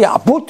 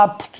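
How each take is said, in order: First: Apud said like salud, stress on -pud, rising; apud stressed on last syllable. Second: Apud said ápud, stress on the a; apud stressed on first syllable. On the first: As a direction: apud with the stress on the end, wrongly, as people would. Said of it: "nosotros decimos salud, entonces esto de acá también será, pues, así". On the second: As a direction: apud with the stress up front, as Latin wants. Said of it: "no van a pronunciar nunca". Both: Shown as a demonstration.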